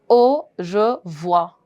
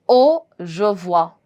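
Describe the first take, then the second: Both takes have the same delivery.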